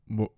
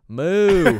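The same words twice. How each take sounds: First: The moo is said in a New York accent. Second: The moo is said in a Southern accent. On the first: "a New York cow's like" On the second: "a southern cow's like"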